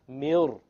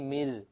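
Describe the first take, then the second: First: The r is pronounced heavy and full-mouthed. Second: The r is pronounced light and thin. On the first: The speaker calls it right. "this ra will become heavy" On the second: The speaker calls it wrong. "You don't say mil"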